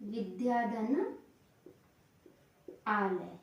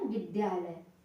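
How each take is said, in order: First: The two words are said separately, not joined. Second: The two words run together into one word.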